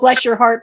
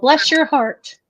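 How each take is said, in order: First: It is said in a warm, sympathetic tone. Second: It is said in a mocking, condescending tone. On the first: The speaker feels sorry for the listener. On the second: The speaker thinks the listener is stupid.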